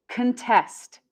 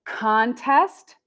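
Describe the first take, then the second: First: Contest as kuhn-TEST, falling; second-syllable stress. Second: Contest as CON-test with rising end; first-syllable stress. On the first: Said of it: "and contest second". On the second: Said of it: "we have contest first". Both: Shown as a demonstration.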